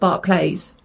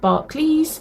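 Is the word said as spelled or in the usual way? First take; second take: as spelled; usual way. First: It is pronounced exactly as it is spelled. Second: It is pronounced the usual, common way. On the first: This follows the spelling of the name. "I have always called it Barclays because it's spelt Barclays" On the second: This is how most people say it. "most people call it Barclays"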